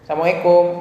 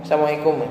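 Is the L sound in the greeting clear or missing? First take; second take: missing; missing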